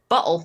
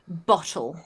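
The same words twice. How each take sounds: First: The middle T sounds like a soft D. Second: The middle T is a crisp English T.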